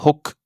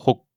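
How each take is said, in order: First: "hoc" with the final K sounded; released final K. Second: "ho" stopped short by a silent K; unreleased final K. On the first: Teacher showing what not to say, "hoc" with released K. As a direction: let the K pop at the end of "hoc". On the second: Teacher showing the correct six, "ho" with swallowed K. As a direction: cut "ho" off without letting K sound. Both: Shown as a demonstration. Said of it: "le K final met fin au son".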